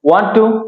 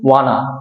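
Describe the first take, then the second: First: Want to is said in full. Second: Want to is reduced to wanna.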